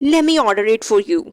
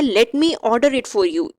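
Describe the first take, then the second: First: 'Let me' is blended quickly into 'lemme'. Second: 'Let me' is said as two full words.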